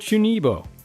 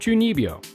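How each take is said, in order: First: The second syllable is said as plain 'bo'. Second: The second syllable is said as 'byo'. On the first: The speaker calls it wrong. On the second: The speaker calls it right.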